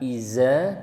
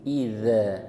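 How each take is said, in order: First: The middle consonant is a buzzing 'z' sound. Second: The middle consonant is a soft 'dh' sound. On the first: The speaker calls it wrong. "bukan iza" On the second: The speaker calls it right. "tapi idza"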